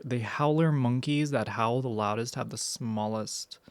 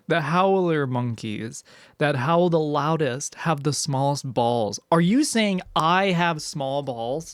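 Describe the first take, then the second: First: Said in the usual way. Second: Loud, slow mock yell of the video guy; slow, loud imitation yell; imitating a yelling dude. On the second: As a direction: belt it out like the dude in the clip. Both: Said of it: "how easily I was able to replicate that".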